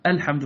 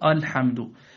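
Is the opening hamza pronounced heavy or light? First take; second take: light; heavy. First: The opening hamza sounds light and thin. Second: The opening hamza sounds heavy and thick. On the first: The speaker calls it right. "رقق الحمد" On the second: The speaker calls it wrong. "فلا تقول الحمد"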